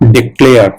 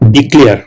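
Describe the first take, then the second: First: It is said with the English pronunciation. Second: It is said the way Bengali speakers say it.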